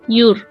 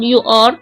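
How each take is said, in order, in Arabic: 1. يُقال كمقطع واحد قصير. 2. يُقال ككلمتين منفصلتين. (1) "لما اجي انطقها اقول your" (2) "بدل ما اقول you are"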